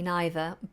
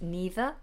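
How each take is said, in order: First: It is said with a British pronunciation. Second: It is said with an American pronunciation. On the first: "the British pronunciation is supposed to be I neither" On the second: "the American version"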